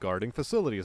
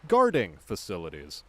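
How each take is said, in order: First: The stress falls on the word facilities. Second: The stress falls on the word guarding. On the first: The job of protecting facilities. The speaker calls it right. "See the way that flows" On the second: Facilities where guarding is manufactured. The speaker calls it wrong. "as opposed to"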